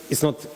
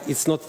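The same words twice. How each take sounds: The two takes are said the same way.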